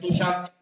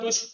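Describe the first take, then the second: First: A vowel separates the sh and k sounds. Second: The sh and k sounds run together. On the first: The speaker calls it right. "ये तुषक" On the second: The speaker calls it wrong. "तुष्क मत पढ़ देना"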